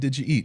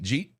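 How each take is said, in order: First: Each word is said separately and in full. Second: The words are squeezed into a single syllable. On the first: "instead of saying" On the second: "the whole Michigan thing"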